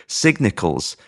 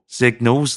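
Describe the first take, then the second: First: Garbled "Signals", with a stray "ick" in the middle; mispronounced signals. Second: Said in the usual way. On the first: Real, not acted. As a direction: say "Signals" with an extra syllable, sig-ni-culs. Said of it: "I'm just gonna let that one fly". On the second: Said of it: "We're not editing it".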